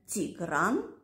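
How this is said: The name begins with a T sound. This is the Eastern Armenian pronunciation. "мы в Восточной Армении говорим"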